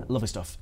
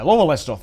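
First: Said in the usual way. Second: Yorkshire accent. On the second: Shown as a demonstration. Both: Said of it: "That's me Yorkshire accent there".

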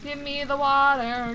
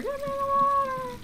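First: Said in the usual way. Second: High, squeaky put-on voice; mock squeaky demand. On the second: Shown as a demonstration. Player mocking the character's demand, high squeaky voice. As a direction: repeat it as a whiny little character. Repeats line two ways.

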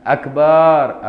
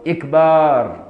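First: أكبر said "AK-baaar" with a long second vowel; loud held last syllable in أكبر, first vowel "a"; opening a, lengthened ba. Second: إكبار said "IK-baaar" with a long second vowel; loud held last syllable in إكبار, first vowel "i"; opening i, lengthened ba. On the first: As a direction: start أكبر on "a" and stretch "baaar". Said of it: "فتح الهمزة". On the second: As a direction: start إكبار on "i" and stretch "baaar". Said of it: "أو كسرها". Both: Shown as a demonstration.

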